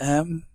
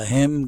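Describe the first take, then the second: First: The h sound is dropped, leaving just 'm. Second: The word starts with a clear h sound. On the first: "goes to M" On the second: "him goes to"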